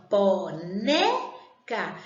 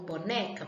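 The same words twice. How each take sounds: First: "boneca" very slow in syllables, né long and forceful; stress on NÉ. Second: Said in the usual way. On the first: Shown as a demonstration. Teacher helping pupils find the unaccented tonic, "boneca" with emphatic né. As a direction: break up "boneca" and lean hard on né. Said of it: "eu falei com mais intensidade a sílaba né".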